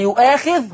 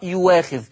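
First: The middle consonant is a glottal stop. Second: The middle consonant is a w sound. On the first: "يبقى يؤاخذ" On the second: "هتقرأ يواخذ"

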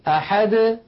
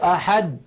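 First: The final d is released with a slight bounce. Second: The final d is closed abruptly without release. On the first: The speaker calls it right. "بل يقولون أحد الله الصمد هكذا بالتباعد" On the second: The speaker calls it wrong. "لا يقولون قل هو الله أحد، لا تفعل العرب ذلك"

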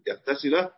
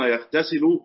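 First: The verb ends with a final a vowel. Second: The verb ends with a final u vowel. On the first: The verb is subjunctive, implying an understood 'an'. "ممكن فيها نصب يغتسل على تقدير أن يغتسل" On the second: The verb is in the indicative mood. "أنا قلت على الضم"

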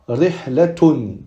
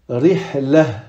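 First: The ending is pronounced with a t sound. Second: The word ends on a vowel, without t. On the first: The sentence continues after the word. "on va prononcer le tamarbuta comme un T" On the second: The speaker stops on this word. "on va le prononcer comme un hai"

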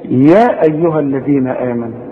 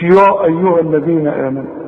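First: The opening ya sound is thin and light. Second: The opening ya sound is heavy and full. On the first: The speaker calls it right. "اذا الياء دي ترقى" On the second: The speaker calls it wrong. "مش"

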